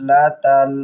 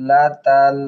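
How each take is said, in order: No difference in how they are said.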